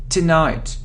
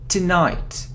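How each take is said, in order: No difference in how they are said.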